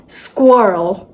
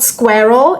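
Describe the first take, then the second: First: Squirrel said slowly as skwirl; drawn out, say squirrel as skwirl; correct squirrel. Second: Squirrel said as skur-ul; wrong squirrel. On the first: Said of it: "it's squirrel". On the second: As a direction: drop the w in squirrel. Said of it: "So it's not squirrel". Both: Shown as a demonstration.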